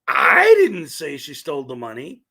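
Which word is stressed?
I. The word 'I' carries the main stress. Someone else said it. "which means somebody else said it"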